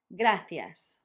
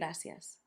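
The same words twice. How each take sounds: First: The middle consonant is a 'th' sound. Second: The middle consonant is an 's' sound. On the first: "that th sound" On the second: "it's equally valid"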